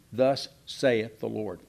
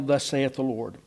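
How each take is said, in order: First: Slow, weighty "Thus saith the Lord" with each word given its weight; solemn emphasis. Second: Said in the usual way. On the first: Shown as a demonstration. Preacher driving home to the class who is speaking, slow and solemn. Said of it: "in case we don't really realize who's speaking". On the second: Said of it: "Just in case we don't really realize who's speaking".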